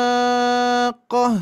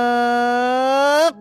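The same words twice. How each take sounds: First: Al-Haqqah drawn out slowly, the doubled q left unstressed; recited without nabar. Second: Al-haq sung out slowly, weight pressed onto the doubled q; slow practice with nabar. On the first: Teacher shows the class a flat Al-Haqqah, slow recitation. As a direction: chant Al-Haqqah slowly with no weight on the qaf. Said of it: "kalau bacaannya seperti itu". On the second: Teacher guides women to practise nabar slowly, pressed qaf. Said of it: "melatih secara perlahan-lahan". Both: Shown as a demonstration.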